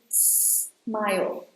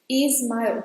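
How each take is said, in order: First: The word starts directly with the S sound. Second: An extra vowel sound comes before the S. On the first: The speaker calls it right. "It should be smile" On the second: The speaker calls it wrong. "some people tend to say Ismail"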